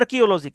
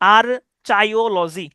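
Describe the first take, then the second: First: The second syllable sounds like "ki". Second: The second syllable sounds like "chai". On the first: This is the real pronunciation. "উচ্চারণটা হচ্ছে" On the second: This is a memory aid for the spelling. "এটাকে আর্চাইও এভাবে আপনি উচ্চারণ করতে পারেন আপনার সুবিধা মতো"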